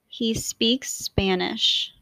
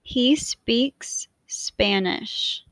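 First: The words are joined smoothly with no break. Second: The words are said with a break between them. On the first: "then I will say them in a more fluid way to demonstrate linking" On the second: "I will say the words with a space in between so you can hear how they sound separately"

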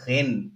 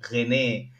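First: The word ends without a final vowel sound. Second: The word ends with a pronounced final vowel. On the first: The speaker calls it right. "it's called Rennes" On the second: The speaker calls it wrong. "I used to think it's René because with an E"

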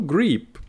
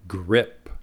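First: The vowel is a long ee sound. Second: The vowel is a short i sound. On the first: The speaker calls it wrong. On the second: The speaker calls it right. "muchas palabras en inglés tienen la I corta"

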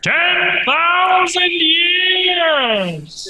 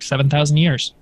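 First: It is said in a put-on dramatic voice. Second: It is said in his normal voice.

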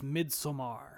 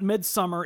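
First: It sounds like the Swedish word 'midsommar'. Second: It sounds like the English word 'midsummer'. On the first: The speaker calls it right. "that is actually how you're supposed to pronounce that movie" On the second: The speaker calls it wrong. "It's not Midsommar"

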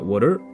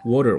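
First: The stress is on the second syllable. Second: The stress is on the first syllable.

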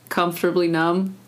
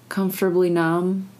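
The two takes are said the same way.

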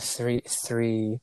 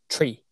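First: The word starts with a th sound. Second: The word starts with a plain t sound.

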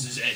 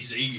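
First: The letter is said the Australian way, as zed. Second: The letter is said the American way, as zee. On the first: The speaker calls it right. "it's Z" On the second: The speaker calls it wrong. "Don't say Z"

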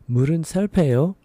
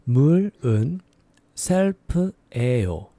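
First: It is said at a faster pace. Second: It is said slowly and carefully.

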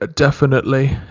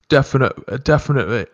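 First: The word ending is fully pronounced. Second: The word ending is cut off. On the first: The speaker calls it wrong. "Instead of definitely" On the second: The speaker calls it right. "just cut it off"

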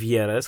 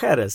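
First: The word begins with a y sound. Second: The word begins with a throaty h sound. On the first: The speaker calls it wrong. "nie w Jerez" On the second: The speaker calls it right. "Sherry powstaje w Jerez"

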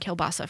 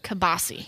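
First: The word has its standard, full pronunciation. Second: The word has a clipped regional Maine pronunciation.

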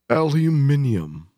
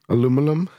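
First: The word is said with five syllables. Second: The word is said with four syllables. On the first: This is the British form. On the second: This is the non-British form.

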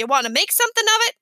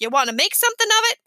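First: It is said in a gruff tough-guy voice. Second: The same.

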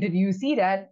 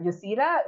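First: Every word is pronounced fully and clearly. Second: The opening words are squished into a reduced sound. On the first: "if you say did you see that" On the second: "it's not even fully you essentially"

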